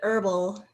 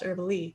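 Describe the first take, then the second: First: The name sounds like the word herbal. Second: The name does not sound like herbal. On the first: This is how most people say it. "everybody pronounces it herbal" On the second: This is how the family says it. "my whole family says it's pronounced Herbale"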